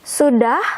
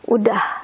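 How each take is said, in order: First: The word begins with an s sound. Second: The word begins with a vowel sound. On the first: This is the full form of the word. "it means done or already" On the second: This is the casual everyday form. "we skip our silent S. It becomes udah instead of sudah"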